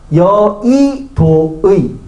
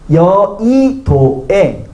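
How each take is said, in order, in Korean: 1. 두 번째 음절은 'i', 마지막 음절은 'ui'를 씁니다. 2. 두 번째 음절은 'ui', 마지막 음절은 'e'를 씁니다. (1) "이도 되고" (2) "애도 되고"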